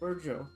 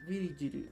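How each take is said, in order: First: No extra vowels are inserted between consonants. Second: Extra vowels are inserted between the consonants. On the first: "there is no vowel in between" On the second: "if you katakanize it, then it loses some of the some of the sounds"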